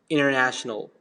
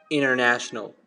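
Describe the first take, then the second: No difference in how they are said.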